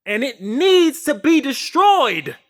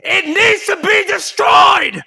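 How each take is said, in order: First: Louder and slower, pressing each word; raised insistent declaration; emphatic. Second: Full shout, much higher and slower; real all-out yell. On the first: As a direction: drive the point home, building. Rising rant about destroying reality. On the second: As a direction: bellow it out at the peak of the rant. Rant peaks, shouted repeat. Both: Real, not acted.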